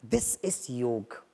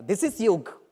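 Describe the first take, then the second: First: Slow soft emphasis. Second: Said in the usual way. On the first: Shown as a demonstration. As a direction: stretch out "This is योग" very slowly and softly. Slow repeat of the phrase. ("This is योग" बहुत धीरे और धीमे स्वर में)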